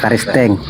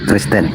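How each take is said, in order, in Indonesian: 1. Sebuah vokal disisipkan di antara K dan R. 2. K dan R disambung tanpa vokal. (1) "bukan Karisteng" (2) "Kristen, bukan Karisteng"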